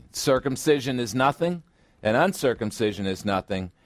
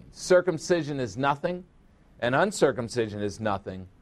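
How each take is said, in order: The two takes are said the same way.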